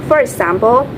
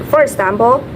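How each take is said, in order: No difference in how they are said.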